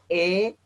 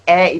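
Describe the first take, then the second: First: The vowel is said as a sere e. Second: The vowel is said as a segol e. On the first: "Kalau e itu sere" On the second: "Bunyi e itu segol"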